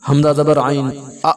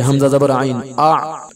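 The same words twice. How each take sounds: First: The ain sound is cut with a glottal catch. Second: The ain sound flows smoothly without a catch. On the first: The speaker calls it wrong. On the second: The speaker calls it right.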